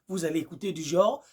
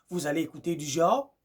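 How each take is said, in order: No difference in how they are said.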